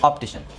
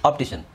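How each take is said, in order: Both takes have the same delivery.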